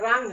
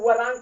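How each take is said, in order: First: The word starts directly with the R sound. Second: A W sound is heard before the R. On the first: The speaker calls it right. "ये रांग है" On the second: The speaker calls it wrong. "इसको वरांग कुछ लोग पढ़ते हैं, वरांग नहीं है"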